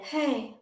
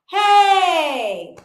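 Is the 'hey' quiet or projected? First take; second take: quiet; projected. First: It is said very quietly, with little voice. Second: It is said long and projected, like calling. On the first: The person behind the door cannot hear it. The speaker calls it wrong. "if you found yourself really quiet" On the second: The person behind the door can hear it. The speaker calls it right. "make it long"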